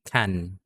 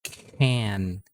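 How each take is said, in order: First: The K has no puff of air after it. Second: The K is followed by a puff of air. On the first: The speaker calls it wrong. "hindi can" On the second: The speaker calls it right. "it's can"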